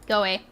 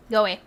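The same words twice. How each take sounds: The two takes are said the same way.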